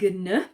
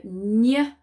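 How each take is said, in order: First: A hard G is heard before the N. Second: No G is heard, only a palatal ny sound. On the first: The speaker calls it wrong. "rather than" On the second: The speaker calls it right. "the G in the in this letter combination is silent, but it makes the N sound ñ"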